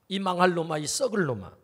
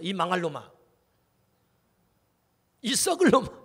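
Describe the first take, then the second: First: It is said in a grave, serious tone. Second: It is said with a laugh in the voice. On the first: The speaker calls it right. "심각하게 말을 해야 되는데" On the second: The speaker calls it wrong. "이 말을 할 때 웃으면서 말하면 안 되는데"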